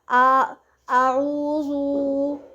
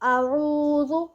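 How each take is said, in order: First: The opening vowel is stretched out long. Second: The opening vowel is short, not stretched. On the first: The speaker calls it wrong. "ऐसे नहीं पढ़ना" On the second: The speaker calls it right. "अब मैंने रो भी नहीं किया, स्टार्ट में मैंने आ भी नहीं किया"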